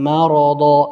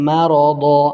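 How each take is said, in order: The two takes are said the same way.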